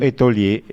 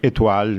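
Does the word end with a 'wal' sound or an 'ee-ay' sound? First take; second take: ee-ay; wal. First: The word ends with an 'ee-ay' sound. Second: The word ends with a 'wal' sound. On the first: The speaker calls it wrong. "E io ho detto étolier, che è uno strafalcione" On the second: The speaker calls it right. "étoile mi sembra che si pronunci"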